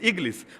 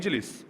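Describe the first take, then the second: First: The middle consonant is a hard g sound. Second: The middle consonant is a j sound. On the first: "কিন্তু ওরা বলে ইগলিস, মানে জিমটারে গাইন বানায় ফেলে" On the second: "আমরা আরবিতে বলবো ইজলিস"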